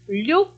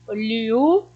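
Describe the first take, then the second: First: The 'lh' sound blends smoothly into the vowel. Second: A clear separate 'li' sound comes before the vowel. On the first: The speaker calls it right. "Não, é liá, lhe, li, lho, lhu" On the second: The speaker calls it wrong. "a gente não fala pausadamente assim. E é errado"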